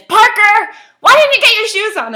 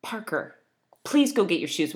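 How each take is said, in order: First: Much higher and louder exasperated yell; raised voice at child. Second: Said in the usual way. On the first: Retold or imitated. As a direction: let it burst out, fed up with the waiting. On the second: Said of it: "I talk sternly".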